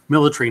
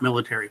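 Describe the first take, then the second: First: It is said with a British pronunciation. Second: It is said with an American pronunciation. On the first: "as the Brits say" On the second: "not military"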